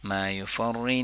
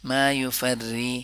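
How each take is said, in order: First: The r sound is heavy and full. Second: The r sound is thin and light. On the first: The speaker calls it wrong. "मा युफर्री नहीं करेंगे।" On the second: The speaker calls it right. "युफर्री को बारीकी से पढ़ लेंगे।"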